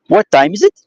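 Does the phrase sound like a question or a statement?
question. It is said with a questioning intonation. It asks a question. "transcribed through the intonation"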